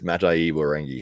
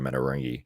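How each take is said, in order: First: Every syllable of the name is pronounced. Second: One syllable of the name is dropped. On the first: The speaker calls it right. "I think it's Matai Warengi" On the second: The speaker calls it wrong. "I drop out that. Yeah, I always just go Matarangi"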